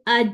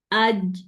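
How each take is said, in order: First: "آج" ending in an airy "ch"; hissy ending on "آج"; fronted wrong jeem. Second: "آج" ending in a voiced j; correct jeem. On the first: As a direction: let the j of "آج" slip into "ch". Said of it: "میری آواز چ کی". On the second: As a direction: finish "آج" on a firm j, no hiss. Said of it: "پیچھے والے part میں لگاتی ہوں". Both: Shown as a demonstration.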